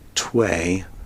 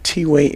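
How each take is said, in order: First: The name is said as one syllable. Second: The name is said as two syllables. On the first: The speaker calls it wrong. "I was calling it Tway" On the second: The speaker calls it right. "T apostrophe way"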